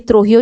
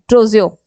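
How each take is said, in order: First: The middle consonant sounds like an h. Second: The middle consonant sounds like a j. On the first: The speaker calls it wrong. "ये त्रोहियो गलत है" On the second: The speaker calls it right. "ये है ट्रोजियो, ये नाम है"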